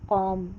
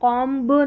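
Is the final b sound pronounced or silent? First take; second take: silent; pronounced. First: The word ends on the m sound. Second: The final b sound is pronounced. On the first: The speaker calls it right. "म पर ही हम silent हो जाएंगे" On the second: The speaker calls it wrong. "कॉम्ब नहीं"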